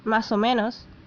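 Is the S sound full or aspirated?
full. The S sounds are pronounced fully.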